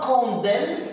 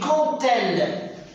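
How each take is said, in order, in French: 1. Les mots sont liés par un son D. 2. Les mots sont liés par un son T. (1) "on ne dit pas quand elle" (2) "Le D ici va se prononcer T. On dit quand elle"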